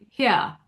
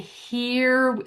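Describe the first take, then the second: First: A very posh British accent, almost 'hyah'. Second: An American accent with a tight vowel.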